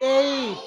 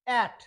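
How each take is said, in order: First: The vowel is a long gliding 'ay' sound. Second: The vowel is a short flat 'a' sound. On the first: The speaker calls it right. "হবে কি এইট" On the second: The speaker calls it wrong. "তো এটা আমরা বলি অ্যাট"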